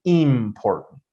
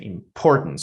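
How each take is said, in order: First: "important" with IM stretched and stressed; wrong stress on IM. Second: "important" stressed im-POR-tant; correct stress on POR. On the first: Teacher showing what not to say, first syllable stressed. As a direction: misplace the stress, IIM-portant. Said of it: "but I don't say important". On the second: Teacher correcting the wrong version, middle syllable stressed. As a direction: keep im light and hit POR in "important". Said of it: "I say important". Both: Shown as a demonstration.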